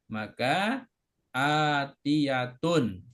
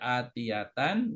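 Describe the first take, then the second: First: The word ends with the sound un. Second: The word ends with the sound an. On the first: The speaker calls it right. "marfu itu harokatnya domah" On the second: The speaker calls it wrong. "Nggak boleh"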